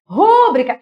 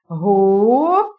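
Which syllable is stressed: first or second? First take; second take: first; second. First: The stress is on the first syllable. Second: The stress is on the second syllable. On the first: The speaker calls it wrong. "errado, não é rúbrica" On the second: The speaker calls it right. "A palavra é rubrica"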